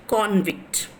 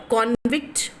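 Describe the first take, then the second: First: "convict" as CON-vict with a falling end; "convict" leaning on CON, closed off; stress on first syllable. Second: "convict" as con-VICT with a rising end; "convict" leaning on VICT, left open; stress on second syllable. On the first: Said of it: "is in the first syllable". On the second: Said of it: "which of the following is the correct stressed syllable". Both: Shown as a demonstration.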